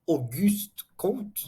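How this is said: The name is said with French pronunciation.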